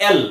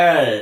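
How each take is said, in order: First: "এল" with a light l, tongue forward; touch the tongue right forward on "এল"; Bengali front L. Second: "এল" drawn out with tongue pulled back; dark L. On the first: Teacher showing the usual habit, "এল" with front l. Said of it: "জিহ্বাটাকে একদম সামনে এনে লাগাই". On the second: Teacher correcting letter L, "এল" with back dark l. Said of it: "জিহ্বাটা পেছনে". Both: Shown as a demonstration.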